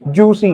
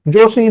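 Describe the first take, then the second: First: It has an 'oo' vowel and an 's' sound. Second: It has an 'o' vowel and an 'sh' sound. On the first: This is how Garhwali speakers say the surname. "Garhwali जो accent है उसमें कहते हैं जूसी" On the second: This is the usual form of the surname. "जोशी नहीं कहते हैं"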